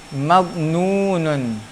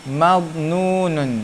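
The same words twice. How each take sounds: The two takes are said the same way.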